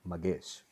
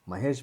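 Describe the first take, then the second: First: The middle consonant is a G sound. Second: The middle consonant is an H sound.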